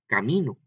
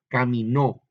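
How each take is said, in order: First: The stress is on the middle syllable. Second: The stress is on the last syllable. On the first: A path or road. "a nomás decir camino" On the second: He walked. "por eso lleva el acento ... aguda"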